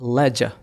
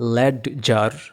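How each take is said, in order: First: The d sound is silent in the middle. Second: The d sound is pronounced in the middle. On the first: The speaker calls it right. "তারপরের শব্দটার উচ্চারণ হবে লেজা" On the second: The speaker calls it wrong. "যদি কেউ বলে এটাকে ল্যাড জার, তাইলে কিন্তু হবে না"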